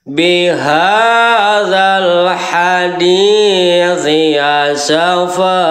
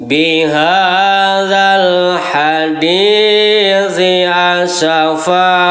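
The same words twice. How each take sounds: Both takes have the same delivery.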